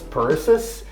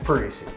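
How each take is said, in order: First: The name ends with an extra 'sis' sound. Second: The name ends with an 'ee' sound. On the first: A caller adds letters to the name. The speaker calls it wrong. "you're going to add letters" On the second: This is how the name really goes. The speaker calls it right. "But it's Parisi"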